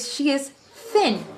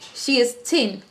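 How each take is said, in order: First: Thin begins with a soft th sound. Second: Thin begins with a plain t sound. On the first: The speaker calls it right. "We say" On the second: The speaker calls it wrong. "we don't say"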